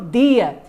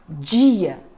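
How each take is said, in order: First: The word begins with a plain 'd' sound. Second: The word begins with a 'dj' sound. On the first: This is how other speakers say it. "Tem também o dia" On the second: This is how speakers from Rio say it. "Um carioca, por exemplo, fala dia"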